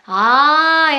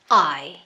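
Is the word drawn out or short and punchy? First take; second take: drawn out; punchy. First: The vowel is stretched out long and soft. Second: The vowel is cut short with a forceful burst. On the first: The speaker calls it wrong. "그냥 I 하고서 이렇게 길게 빼는 게 아니라" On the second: The speaker calls it right. "I 이렇게 뱉으셔야 돼요"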